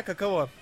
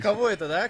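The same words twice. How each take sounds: First: Каково with all three syllables, ka-ka-VO; plain. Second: Каково clipped to kavo, middle syllable swallowed; Katya's way. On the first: Shown as a demonstration. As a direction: say Каково fully, every syllable clear. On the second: Retold or imitated. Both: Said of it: "Катя так говорят".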